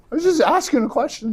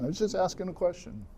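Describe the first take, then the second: First: Put-on whiny kid. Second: Put-on softer whiny kid. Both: David defends himself to brother.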